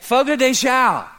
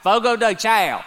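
First: It is said in a Brazilian accent. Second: It is said in a Georgia accent.

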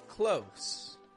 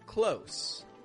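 First: The word ends with a hissing s sound. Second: The same.

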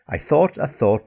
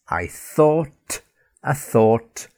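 First: The phrase is spoken at a quick pace. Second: The phrase is spoken at a slow pace. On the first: "A little quicker" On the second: "And more slowly"

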